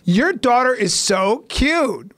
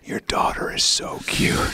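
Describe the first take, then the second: First: It is spoken in a normal, full voice. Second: It is spoken in a breathy whisper. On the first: It is an ordinary compliment. The speaker calls it right. "you can be like" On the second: It sounds creepy. The speaker calls it wrong. "there's certain things you can't whisper in life"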